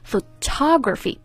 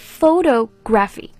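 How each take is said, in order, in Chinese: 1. 重音在第二个音节。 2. 重音在第一个音节。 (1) "重音在第二个" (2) "不是"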